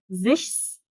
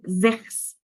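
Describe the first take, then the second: First: The middle consonant is an sh sound. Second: The middle consonant is a throaty kh sound. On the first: "ما تقوليش إيه زِشس أو زِخس falsch غلط" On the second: "ما تقوليش إيه زِشس أو زِخس falsch غلط"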